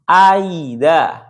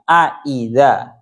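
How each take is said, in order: First: The second glottal stop is softened toward a 'y'. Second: The second glottal stop is pronounced fully and clearly. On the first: "dibaca tashil antara ya dan juga hamzah" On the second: "Jadi jelas hamzahnya. Tahqiq hamzahnya"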